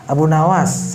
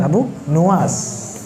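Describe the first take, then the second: First: The second word's first vowel sounds like 'a'. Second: The second word's first vowel sounds like 'u'. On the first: The speaker calls it wrong. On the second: The speaker calls it right. "yang benar"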